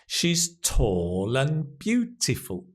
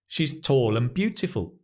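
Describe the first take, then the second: First: The sentence is spoken slowly. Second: The sentence is spoken at normal speed.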